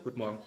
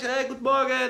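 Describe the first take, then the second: First: The greeting sounds flat and matter-of-fact. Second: The greeting sounds cheerful and outgoing.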